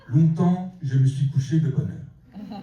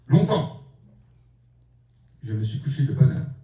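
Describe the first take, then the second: First: The first word runs plainly into the sentence. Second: The first word is called out, then a pause. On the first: It says the speaker used to go to bed early. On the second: It addresses time directly, as a cry of defiance.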